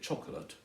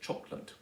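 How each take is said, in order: First: The word is said with three syllables. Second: The word is said with two syllables. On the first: "three syllables" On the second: "two syllables"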